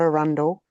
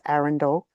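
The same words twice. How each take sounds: First: Said the way the Queensland place is said. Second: Said the way the English castle is said. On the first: The speaker calls it wrong. "It's not Arundel" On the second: The speaker calls it right. "it's Arundel"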